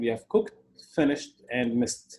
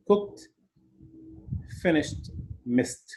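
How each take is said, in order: First: "cooked", "finished", "missed" each ending in a short t sound. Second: "Cooked", "finished", "missed" said one by one, each ending in t; ed as t, slower. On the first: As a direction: say "cooked" as cookt, no extra syllable. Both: Shown as a demonstration. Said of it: "pronounce the E D just like ته".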